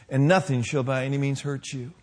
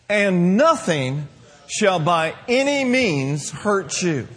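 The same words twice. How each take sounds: First: Said in the usual way. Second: Slow, with stress on "any", each word held apart; slow emphatic reading. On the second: Shown as a demonstration. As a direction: lean hard on "any" in "by any means". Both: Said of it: "That's a double negative".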